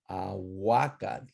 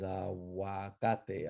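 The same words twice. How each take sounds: First: Slow aguacate, a-WA-catl. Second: Aguacate as a-wa-CA-te; slow, softer aguacate with a spoken final te; modern Spanish form. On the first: Teacher shows class the H U rule, W sound. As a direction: end aguacate on voiceless tl, no final vowel. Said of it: "H U is pronounced as W". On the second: Teacher gives class today's word, Spanish ending. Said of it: "which is aguacate". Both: Shown as a demonstration.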